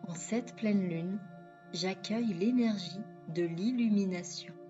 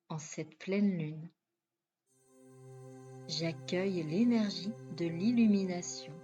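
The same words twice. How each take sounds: First: The phrase is spoken at a quicker pace. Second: The phrase is spoken at a slower pace.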